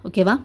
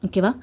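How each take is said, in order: The two takes are said the same way.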